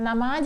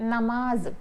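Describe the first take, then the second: First: The word ends with a 'j' sound. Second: The word ends with a 'z' sound. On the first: The speaker calls it wrong. "जीम आ गया, लेकिन ये गलत है" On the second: The speaker calls it right. "उसका phonic sound जे का है"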